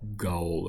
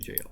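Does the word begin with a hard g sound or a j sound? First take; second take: hard g; j sound. First: It begins with a hard g sound. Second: It begins with a j sound. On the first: The speaker calls it wrong. "I was pronouncing it like Gaul or something" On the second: The speaker calls it right. "but it's actually jail"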